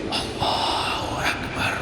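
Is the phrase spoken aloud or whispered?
whispered. It is spoken in a quiet whisper. "suara berbisik"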